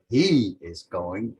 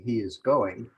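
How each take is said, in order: First: "he" drawn out slowly and louder; stress on HE. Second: Said in the usual way. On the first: Shown as a demonstration. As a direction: lean long and hard on "he". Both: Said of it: "if you wanted to emphasize that".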